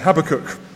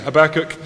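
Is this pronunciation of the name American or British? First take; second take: British; American. First: It is pronounced the British way. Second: It is pronounced the American way. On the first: "we say Habakkuk" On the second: "you say Habakkuk"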